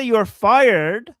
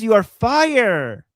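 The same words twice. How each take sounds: First: Slow, stressed "fired" with the d crisp at the end; "You are fired" said slowly with a clear final d; deliberate quote. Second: "fire" said slowly with no d at the end; "You are fire", drawn out and dropping the final d; mispronounced quote. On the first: To the co-host, quoting the catchphrase correctly, slow and firm. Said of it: "He says, "You are fire". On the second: Mimicking the leader's slip for the co-host, slow and deliberate. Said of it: "He says". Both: Retold or imitated.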